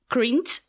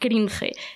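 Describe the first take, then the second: First: It is said with an English pronunciation. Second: It is said with a Spanish pronunciation. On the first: "para los más bilingües, así bien dicho" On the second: "prefiero la versión españolizada, que suena así más fuerte"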